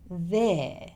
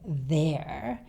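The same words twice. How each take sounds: First: The word ends with no schwa or r. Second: The word ends with an r sound. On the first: "we tend to drop even the schwa sound" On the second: "So he doesn't say there"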